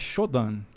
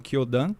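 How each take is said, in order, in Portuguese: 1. O nome começa com som de SH. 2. O nome começa com som de K. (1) "É Shodan" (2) "eu já vou falar o nome abrasileirado"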